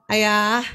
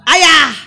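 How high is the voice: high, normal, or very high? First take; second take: normal; very high. First: It is said at a normal pitch. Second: It is said at an extremely high pitch. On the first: A first ordinary call. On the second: An exasperated call after being ignored twice.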